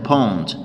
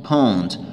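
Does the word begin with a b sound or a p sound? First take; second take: p sound; p sound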